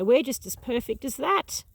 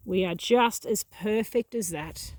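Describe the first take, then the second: First: Said in the usual way. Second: "just" leaned on, whole line said slower and deliberately; slow emphatic repeat. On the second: Real, not acted. Gardener insisting to viewers that "just" as perfect, slow and emphatic. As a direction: repeat it and press on "just" to drive it home.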